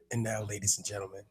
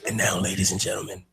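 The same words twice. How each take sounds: First: It is said in a put-on sexy voice. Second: It is said in a plain announcer voice.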